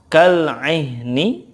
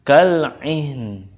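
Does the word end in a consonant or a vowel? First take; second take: vowel; consonant. First: The word ends with a final vowel sound. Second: The word ends on a bare n. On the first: The reader continues without stopping. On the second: The reader stops at this word.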